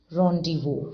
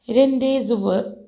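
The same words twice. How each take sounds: First: Rendezvous said "RON-di-voo", silent Z and S; correct pronunciation. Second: RENDEZVOUS read letter by letter as "REN-dez-vo-uh"; misread as spelled. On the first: Shown as a demonstration. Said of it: "pronounced as rendezvous". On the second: Real, not acted. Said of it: "we call it something here".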